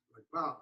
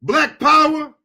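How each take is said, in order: First: Hushed echo. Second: Heated rally cry. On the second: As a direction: raise the call up high, fired up. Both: Real, not acted. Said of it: "I know I'm getting heated up".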